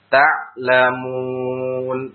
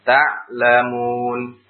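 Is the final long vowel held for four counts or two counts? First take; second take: four counts; two counts. First: The long vowel is held for four counts. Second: The long vowel is held for two counts.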